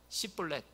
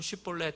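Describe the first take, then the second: First: The word begins with a plain 's' sound. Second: The word begins with a 'sh' sound. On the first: The speaker belongs to the enemy tribe. The speaker calls it wrong. "이 발음이 안 되는 거예요. 시볼렛 이렇게 한 거예요" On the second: The speaker is not from that tribe. The speaker calls it right. "다른 사람들은 쉬볼렛 하는데"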